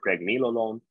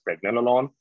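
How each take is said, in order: First: "pregnenolone" said preg-NEE-lo-lone; long-E pronunciation. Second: "pregnenolone" said preg-NEL-uh-lone; short-E pronunciation. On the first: Lecturer offering students the alternative, long-E "pregnenolone". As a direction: give "pregnenolone" a long "nee" second syllable. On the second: Lecturer telling students either way is fine, short-E "pregnenolone". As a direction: give "pregnenolone" a short "nel" second syllable. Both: Shown as a demonstration. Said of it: "You can pronounce this as".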